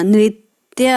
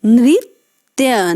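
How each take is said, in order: First: Said in the usual way. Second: नृत्य drawn out slowly, ऋ sounded as रि; slow careful नृत्य. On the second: Shown as a demonstration. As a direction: model नृत्य slowly for the class. (नृत्य धीरे और स्पष्ट) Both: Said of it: "न में री की मात्रा लगी है".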